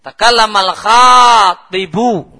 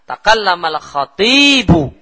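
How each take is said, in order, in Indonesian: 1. Vokal pertama, setelah "kh", itu panjang. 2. Vokal kedua, setelah "t", itu panjang. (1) "Itu kalau khoknya panjang artinya pelamar" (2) "orator itu yang panjang toknya"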